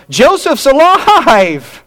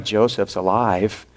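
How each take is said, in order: First: Much higher, louder, slow ecstatic "Joseph's alive!"; joyful cry. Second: Softer, lower, sinking "Joseph's alive."; dread. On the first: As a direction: shout it out in stunned joy, drawing it out. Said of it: "on one hand, they're going". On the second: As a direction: say it as the fear sinks in. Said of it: "on the other hand, they go". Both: Retold or imitated.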